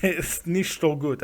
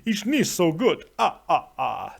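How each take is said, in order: First: Mock German with a Dracula accent; Transylvanian Dracula accent. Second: Put-on Dracula accent. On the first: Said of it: "said it with a Transylvanian Dracula accent". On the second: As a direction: play up the Transylvanian vampire accent. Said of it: "with a Transylvanian Dracula accent".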